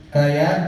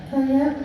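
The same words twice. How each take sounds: First: Said in the usual way. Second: High puppet voice repeating Kayak; monkey puppet voice. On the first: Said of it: "Coba bilang". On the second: Acted. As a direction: parrot Kayak as a little monkey. Coba bilang.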